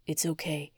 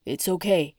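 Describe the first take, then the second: First: Much softer, fading to a hush; hushed reassurance. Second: Gently calm her from a nightmare; lightly voiced fiancé. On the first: Oscar calming his fiancée at midnight, fading hush. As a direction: let the voice fade into stillness. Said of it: "His voice faded to a hushed stillness". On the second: Fiancé soothing her awake from a nightmare, lightly voiced. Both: A narrator's reading.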